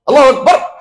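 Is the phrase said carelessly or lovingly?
carelessly. It is said quickly and flatly, without warmth. The prayer lacks humility and love. The speaker calls it wrong. "এভাবে বলে এটা কিচ্ছু হলো না। এজন্য তো বিনয় নাই, ভালোবাসাও নাই"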